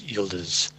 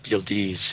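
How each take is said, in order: First: The last syllable is not said like 'eez'. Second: The last syllable is said like 'eez'. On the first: The speaker calls it right. "it's Yildiz" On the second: The speaker calls it wrong. "I've been saying ease"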